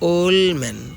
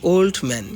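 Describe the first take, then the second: First: The d sound is left out. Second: The d sound is clearly pronounced. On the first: "ইলিজন করলে ... ডি বাদ পড়েছে" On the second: "পূর্ণ উচ্চারণ"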